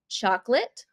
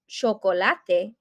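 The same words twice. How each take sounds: First: The word is pronounced the English way. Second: The word is pronounced the Spanish way. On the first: "in English" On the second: "in Spanish"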